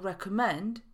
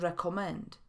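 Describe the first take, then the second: First: The second vowel is a reduced schwa. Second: The second vowel is a full o sound. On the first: The speaker calls it right. "Polecać to recommend" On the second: The speaker calls it wrong. "a nie recommend"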